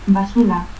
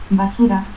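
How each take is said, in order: First: Basura said as "basula". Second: Said in the usual way. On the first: Shown as a demonstration. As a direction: turn the R of Basura into L. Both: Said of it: "Lanchero, ranchero".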